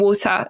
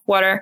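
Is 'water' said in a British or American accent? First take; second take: British; American. First: It is said with a British accent. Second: It is said with an American accent.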